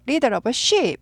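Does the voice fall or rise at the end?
fall. The voice falls at the end. The speaker calls it right. "끝을 내려 읽습니다"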